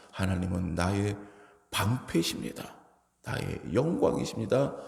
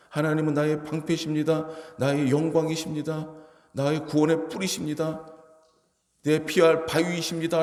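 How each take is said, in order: First: Quiet confession. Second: Higher, ringing declaration of faith; bold proclamation. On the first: Retold or imitated. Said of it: "라고 고백하는 거예요". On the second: Shown as a demonstration. Preacher proclaiming God as shield before the church, ringing and bold. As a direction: proclaim it boldly to the congregation. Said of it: "라고 선포하면".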